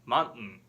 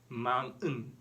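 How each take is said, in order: First: The word is natural with the T not heard. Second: The word is exaggerated with a clearly pronounced T. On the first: The speaker calls it right. "이 T 음이 들리질 않아요" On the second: The speaker calls it wrong. "No, don't exaggerate it"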